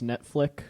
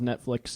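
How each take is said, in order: First: The word ends with a plain k sound. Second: The word ends with a ks sound.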